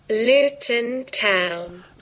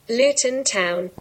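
First: It is said slowly. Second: It is said at normal speed.

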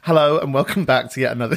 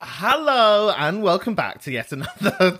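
First: The greeting is delivered with calmer, lower energy. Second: The greeting is delivered with high energy. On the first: The speaker calls it right. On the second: The speaker calls it wrong.

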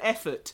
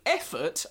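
First: It is said plainly, without sarcasm. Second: It is said sarcastically, with doubt.

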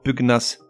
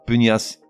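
First: The G and N are pronounced as separate sounds. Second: The G and N merge into one 'ny' sound. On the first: The speaker calls it right. "certains mots se prononcent avec le G séparé du N" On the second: The speaker calls it wrong. "et non pas pugnace"

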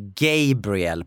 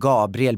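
First: The name has an English pronunciation. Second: The name has a Swedish pronunciation. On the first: "blir Gabriel på engelska" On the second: "mitt namn Gabriel"

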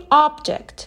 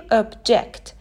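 First: The stress is on the first syllable. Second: The stress is on the second syllable. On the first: It is a noun meaning a thing or object. "استرس رو روی سیلاب اول بذاریم و بگیم object" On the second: It is a verb meaning to oppose. "استرس رو روی سیلاب دوم بذاریم و بگیم object"

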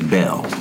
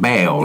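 First: The vowel is short, as in 'bell'. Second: The vowel is long, as in 'bail'. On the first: "her last name is Bell, like a bell you ring" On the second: "he says it like bail"

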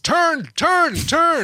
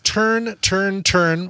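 First: It is said forcefully, like barked commands. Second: It is said calmly, like a plain title.

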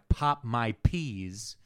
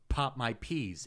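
First: The p sounds make loud bursts of air. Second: The p sounds are clean without air bursts. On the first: The speaker calls it wrong. "without the screen, when I pop my peas, it comes through" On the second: The speaker calls it right. "It's not coming through now"

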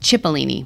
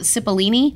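First: The word begins with a ch sound. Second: The word begins with an s sound. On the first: The speaker calls it right. "You pronounce the CH" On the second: The speaker calls it wrong. "I called it Cipollini"

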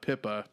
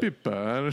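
First: The name is said in a plain accent. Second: The name is said with an Italian-style accent.

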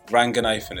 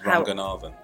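First: The name is said with an English-style pronunciation. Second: The name is said with a Sri Lankan pronunciation. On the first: The speaker calls it wrong. "Ranganathan is not right" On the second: The speaker calls it right. "That's the Sri Lankan pronunciation"

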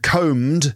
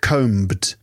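First: The B sound is silent. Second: The B sound is pronounced. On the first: The speaker calls it right. "The B is silent... and combed" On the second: The speaker calls it wrong. "not combed"

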